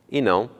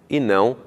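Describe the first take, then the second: No difference in how they are said.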